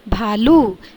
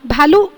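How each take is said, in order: First: The final u vowel is long. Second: The final u vowel is short. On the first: The speaker calls it right. "बड़े ऊ की मात्रा" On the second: The speaker calls it wrong. "हम भालू नहीं कहते हैं"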